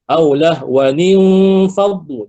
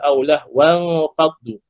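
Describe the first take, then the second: First: A linking 'nin' syllable joins the words. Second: The words join directly without a 'nin' syllable. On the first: The speaker calls it right. "baca lah wa nin faddu" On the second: The speaker calls it wrong. "Jangan baca aulah wan faddu. Salah"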